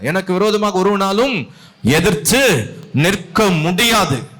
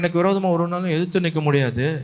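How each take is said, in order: First: It is said boldly and with confidence. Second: It is said timidly, as if hiding. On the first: The speaker firmly believes the claim. The speaker calls it right. "இல்ல" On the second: The speaker lacks confidence in the claim. The speaker calls it wrong. "நம்ம என்னமோ போய் ஒளிஞ்சுக்கிட்டு சொல்ற மாதிரி இருக்குது"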